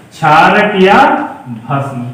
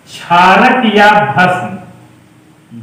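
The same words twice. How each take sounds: First: क्षारक या, then a held pause, then भस्म dropped low; pause before भस्म. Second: क्षारक या भस्म spelled out very slowly, word by word; slow dictation. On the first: Teacher repeating the term with a pause for the class. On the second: Teacher dictating the Hindi name of base slowly. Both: Shown as a demonstration. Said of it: "समझे ध्यान से".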